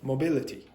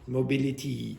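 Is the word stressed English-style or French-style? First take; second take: English-style; French-style. First: The stress falls on the usual English syllable. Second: The stress falls on a misplaced syllable. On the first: The speaker calls it right. "instead of" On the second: The speaker calls it wrong. "French speakers put the stress in the wrong part"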